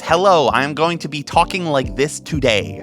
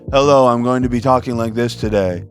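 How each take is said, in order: First: Every consonant is sharply and heavily articulated. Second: Consonants are softened and words blend smoothly together. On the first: The speaker calls it wrong. "over enunciation is" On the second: The speaker calls it right. "almost doing the opposite of that"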